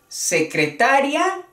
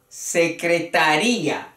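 First: The stress falls on the syllable ta. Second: The stress falls on the syllable ri. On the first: A female secretary. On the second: A secretary's office.

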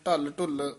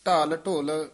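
First: Both words are said with short vowels. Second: Both words are said with long vowels. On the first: The speaker calls it wrong. "ਇਸ ਨੂੰ ਢਲ ਢੁੱਲ ਨਹੀਂ ਕਹਿਣਾ" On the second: The speaker calls it right. "ਇਹ ਪੂਲੇ ਪਦ ਉਚਾਰਨ ਕਰਨੇ ਹੈ"

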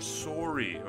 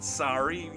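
First: The first vowel has a Canadian rounded quality. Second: The first vowel has an American open quality. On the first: The speaker calls it right. "you're sorry" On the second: The speaker calls it wrong. "no, it's not sorry"

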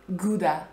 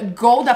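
First: It is said with an English pronunciation. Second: It is said with a Polish pronunciation.

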